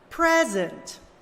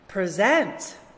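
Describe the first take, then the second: First: The stress is on the first syllable. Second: The stress is on the second syllable. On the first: It is used as a noun. "read the nouns with the stress on the first syllable" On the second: It is used as a verb. "the opposite"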